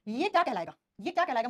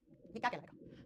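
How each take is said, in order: First: Firm and loud, calling out to the class; teacher calling the question out loud; loud quiz question. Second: Same question dropped to a hush; teacher repeating the question in a whisper. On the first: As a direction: demand the answer from the whole room. Teacher quizzing class, repeats question. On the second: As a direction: whisper it like a secret challenge. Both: Real, not acted.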